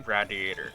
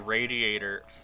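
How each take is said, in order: First: It is said the Western Pennsylvania way. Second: It is said the general American way.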